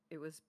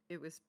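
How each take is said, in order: Both takes have the same delivery.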